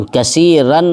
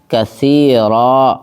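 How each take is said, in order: First: کثیرن stopped on with the nun sound kept; wrong pause reading. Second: کثیرا ending in a long drawn a; correct pause reading. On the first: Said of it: "ایسے کر کر کے نہیں رکنا ہے". (کثیرن پر غلط طریقے سے رکنا) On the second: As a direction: pause on کثیرا stretching the final a. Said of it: "رکنے کا طریقہ ہے". (کثیرا پر صحیح طریقے سے رکنا) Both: Shown as a demonstration.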